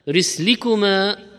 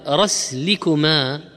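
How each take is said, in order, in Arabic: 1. الحركة الأولى هي 'i' (risl). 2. الحركة الأولى هي 'a' (rasl). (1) "والكسر أفصح وأشهر" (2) "ويقال أيضا"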